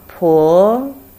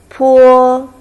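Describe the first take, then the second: First: It is said with the second tone. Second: It is said with the first tone. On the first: "Second tone" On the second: "The first one"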